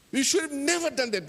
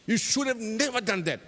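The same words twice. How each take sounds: First: Much higher, heated repeat of the reproach; rising anger. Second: Raised, scolding reproach; blaming. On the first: Chope blaming Tabale again, rising to a heated scold. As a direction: push the blame harder, voice climbing. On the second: Chope blaming Tabale for lifting the lid, scolding. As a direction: tell him off for what he did. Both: Acted.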